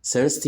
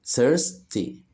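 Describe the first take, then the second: First: Said in the usual way. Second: "thirsty" broken as thirs, pause, ty; split into syllables. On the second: Shown as a demonstration. Teacher showing children two syllables, "thirsty" split in two. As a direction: say "thirsty" in two separate beats. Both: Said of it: "فيها مقطعين صوتيين".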